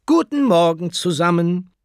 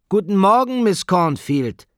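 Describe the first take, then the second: First: High, loud classroom hello; teacher's greeting. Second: Very high, loud schoolroom singsong; resounding class greeting. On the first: Acted. Teacher sweeps in and greets her class, ringing greeting. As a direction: project it brightly to a whole class. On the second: A narrator's reading. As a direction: chant it back like a class of pupils, drawing out the name. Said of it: "schallte es zurück".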